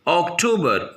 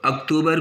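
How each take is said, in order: First: अक्टूबर as "ok-TOE-ber", with o sounds; English pronunciation. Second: अक्टूबर as a quick "uk-too-bar"; Hindi pronunciation. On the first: Teacher answers how to pronounce it in English, English pronunciation. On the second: Teacher asks how to pronounce it in English, Hindi pronunciation. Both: Shown as a demonstration. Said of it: "English में कैसे pronounce करेंगे".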